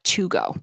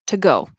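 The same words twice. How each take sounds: First: The word 'to' has its full vowel. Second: The word 'to' is reduced to a t. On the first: "instead of to go" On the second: "the to in connected speech will turn into t"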